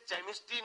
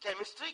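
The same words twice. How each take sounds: First: The word begins with a ch sound. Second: The word begins with a k sound. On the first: The speaker calls it wrong. "इसे केमिस्ट्री नहीं" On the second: The speaker calls it right. "केमिस्ट्री कहते हैं"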